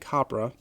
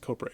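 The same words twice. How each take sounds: First: The first syllable does not rhyme with cobra's. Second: The first syllable rhymes with cobra's first syllable. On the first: The speaker calls it wrong. "I've been saying Copra" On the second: The speaker calls it right. "It rhymes with Cobra"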